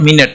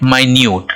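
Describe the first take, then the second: First: It is said 'minnit', with two short vowels. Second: It is said 'my-newt', with long vowels. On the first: "इसको क्या बोलेंगे? मिनट" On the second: "इसको बोलेंगे माइन्यूट"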